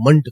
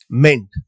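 First: The syllable has a reduced, schwa-like vowel. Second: The syllable has a full 'e' vowel. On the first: The speaker calls it right. "ते मेंट न करता आपण मंट करायचा" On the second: The speaker calls it wrong. "आपण मेंट म्हणतो"

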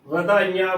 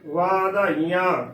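First: The first vowel is a short 'a'. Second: The first vowel is a long 'aa'. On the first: The speaker calls it wrong. "ਵਾਵਾ ਮੁਕਤੇ ਦੇ ਨਾਲ ਕਰਾਂਗੇ, ਗਲਤ ਉਚਾਰਨ ਹੋਵੇਗਾ" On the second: The speaker calls it right. "ਵਾਵੇ ਨੂੰ ਕੰਨਾ ਇਹਦੇ ਨਾਲ ਹੀ ਉਚਾਰਨ ਕਰਨਾ ਹੈ"

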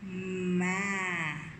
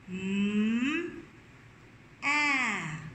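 First: The two sounds are said together, with no pause. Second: The two sounds are said apart, with a pause.

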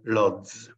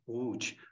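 First: The name is said with anglicized foreign sounds. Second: The name is said with native Polish sounds. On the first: This is how foreigners say it. "majority of the people from outside, from other countries, tell Lodz" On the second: This is how locals say it. "We pronounce it Łódź"

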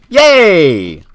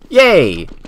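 First: It is said louder and more excited. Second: It is said quietly and muffled.

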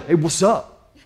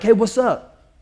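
First: It is said in a low growling voice. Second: It is said in a short barking voice.

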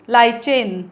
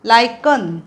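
First: The middle consonant sounds like 'ch'. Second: The middle consonant sounds like 'k'. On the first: The speaker calls it wrong. "उच्चार तुम्ही चुकून लायचेन असा कराल, तो उच्चार नाही आहे" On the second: The speaker calls it right. "ह्याचा लायकन असा उच्चार आहे"

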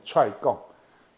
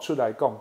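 First: The first two syllables are squeezed into one. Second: The first two syllables are said fully and separately.

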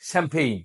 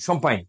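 First: English vowels with an m sound. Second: French vowels with an m sound. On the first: "ইংরেজরা কি বলে জানেন" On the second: "হঠাৎ বলছে লোকালি শম্পাইন"

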